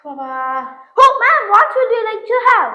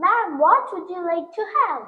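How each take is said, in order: First: Slow, drawn-out waiter English; coffee-shop waiter taking the order in slow English; posh waiter. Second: Softer, very slow waiter's question; slow waiter English. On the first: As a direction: play a café waiter stretching every word. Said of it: "அம்மா இங்கிலீஷை இப்ப நீ பாரு". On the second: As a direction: repeat the order slowly for her. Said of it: "இன்னொரு தடவை சொல்லு". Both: Acted.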